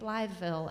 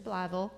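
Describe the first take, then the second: First: The name is said in full, like Blytheville. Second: The name is shortened, sounding like Blavel. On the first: The speaker calls it wrong. "I was saying Blytheville, and I that's wrong" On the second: The speaker calls it right. "It's Blavel"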